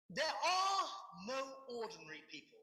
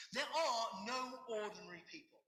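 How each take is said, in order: First: Shouted quote. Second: Said in the usual way. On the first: Real, not acted. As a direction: belt out the opening of the quote. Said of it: "Shouting again".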